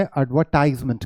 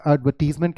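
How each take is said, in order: First: एडवर्टाइजमेंट said with "tize"; American pronunciation. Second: एडवर्टीजमेंट said with "tiz"; British pronunciation. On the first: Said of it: "American English में". (एडवर्टाइजमेंट में अमेरिकी "टाइज़") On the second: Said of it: "British English में". (एडवर्टीजमेंट में British "टीज़") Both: Shown as a demonstration.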